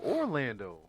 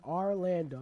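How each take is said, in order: First: Orlando opened on a clear "OR"; "Orlando" with a full O at the start. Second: Orlando opened on an "AR" sound; "Orlando" with AR in place of OR; name with a twist. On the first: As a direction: say Orlando as "Or-LAN-do", rounded O first. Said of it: "Why'd you just put the O?". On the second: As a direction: say Orlando as "Ar-LAN-do". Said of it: "put a little twist on it". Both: Shown as a demonstration.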